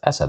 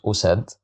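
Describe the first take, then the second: First: The word begins with an a vowel. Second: The word begins with a u vowel. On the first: The speaker calls it right. "I have to pronounce it as asad" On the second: The speaker calls it wrong. "I can't pronounce it as usad"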